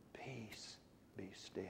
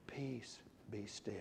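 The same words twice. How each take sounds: First: A bare whisper; very soft. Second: Hushed and gentle, much softer. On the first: Preacher demonstrating pianissimo as a whisper. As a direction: whisper it, almost nothing. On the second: Preacher demonstrating piano, the soft marking. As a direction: say it softly, like calming a storm. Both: Shown as a demonstration. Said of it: "Soft and very soft".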